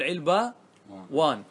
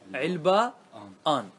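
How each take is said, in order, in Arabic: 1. يأتي صوت الواو قبل علامة التثنية. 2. تأتي الهمزة قبل علامة التثنية. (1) "يجوز بالواو" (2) "ويجوز بالهمز"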